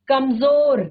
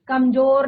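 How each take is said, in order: First: The consonant is a buzzing z sound. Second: The consonant is a plain j sound. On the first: The speaker calls it right. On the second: The speaker calls it wrong.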